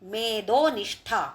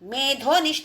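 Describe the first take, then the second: First: The d sound is unaspirated, without breath. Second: The d sound is aspirated, with a breath. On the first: It refers to fat. The speaker calls it right. "మేధ అల్పప్రాణ ద" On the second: It refers to intellect. The speaker calls it wrong. "మేధోనిష్ట అంటే తప్పు"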